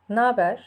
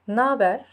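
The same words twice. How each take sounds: First: It is contracted into one short word. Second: It is contracted into one short word.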